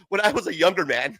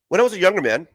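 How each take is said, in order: First: It is said in his own normal voice. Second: It is said in an impression of Beckerman.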